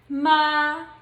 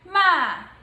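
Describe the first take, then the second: First: It is said in the first tone. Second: It is said in the fourth tone. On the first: "the pronunciation of the first tone would be" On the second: "The fourth tone would be"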